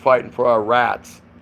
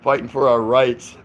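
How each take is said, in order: First: The vowel in 'rights' is flattened, Southern style. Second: The vowel in 'rights' is a standard diphthong. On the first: "that's a southern accent that he was trying to say the word rights" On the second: "he was saying rights"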